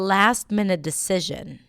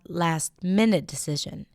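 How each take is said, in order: First: The stress falls on the word last. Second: The stress falls on the word minute. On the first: The speaker calls it right. "I would put the stress on last" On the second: The speaker calls it wrong.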